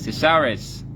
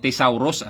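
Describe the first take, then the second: First: It is said with the standard pronunciation. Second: It is read out following its spelling. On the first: The speaker calls it right. "it's pronounced as" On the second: The speaker calls it wrong. "ang spelling niyan, pag binasa mo"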